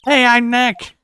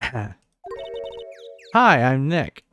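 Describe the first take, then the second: First: It is said loudly. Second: It is said at a quiet, normal volume.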